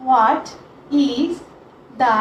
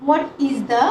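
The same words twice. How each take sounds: First: Each word set apart by long pauses; word-by-word dictation. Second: Said in the usual way. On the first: Shown as a demonstration. Teacher dictating question one to students, word by word.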